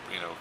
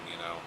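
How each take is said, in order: Both takes have the same delivery.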